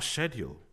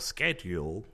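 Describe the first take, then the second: First: The word is said in a non-American way. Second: The word is said in an American way.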